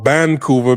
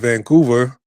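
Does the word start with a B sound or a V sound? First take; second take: B sound; V sound. First: The word starts with a B sound. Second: The word starts with a V sound.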